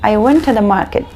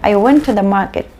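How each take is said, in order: First: The word 'to' is reduced to a weak 'tuh'. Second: The same.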